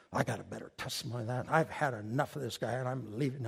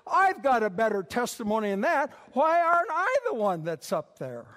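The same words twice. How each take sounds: First: Low, soft, quick grumble; grumbling to himself. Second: Raised, indignant mock boast; indignant protest. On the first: Acted. Preacher replays his thought in the meeting, low grumble. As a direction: grumble low under your breath, fed up. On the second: Preacher mimics his jealous self, indignant protest. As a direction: protest loudly and higher, as if passed over.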